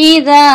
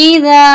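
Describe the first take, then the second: Both takes have the same delivery.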